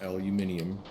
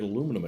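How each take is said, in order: First: The word is said as aluminium. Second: The word is said as aluminum. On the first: The speaker calls it wrong. "It is not pronounced aluminium" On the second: The speaker calls it right. "that is how it's pronounced"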